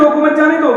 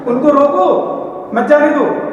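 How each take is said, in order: First: रोको मत जाने दो in one breath, no comma; misheard, run together. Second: रोको stressed, a clear break, then मत जाने दो; pause after रोको. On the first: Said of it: "उसने सुन लिया". (रोको मत जाने दो, बिना ठहरे एक साथ) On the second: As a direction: split it firmly: उनको रोको, pause, मत जाने दो. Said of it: "एक कोमा मात्र में". (रोको पर ज़ोर, फिर ठहरकर मत जाने दो) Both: Retold or imitated.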